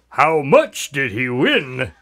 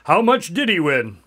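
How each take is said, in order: First: The line is said with heavy emphasis. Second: The line is said with lighter emphasis.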